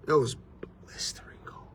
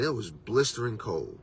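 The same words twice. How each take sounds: First: Whispered for dramatic effect; barely-there whisper, letting it sink in; hushed whisper. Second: Said in the usual way. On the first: Real, not acted. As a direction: drop to a bare whisper. Repeats the line for effect.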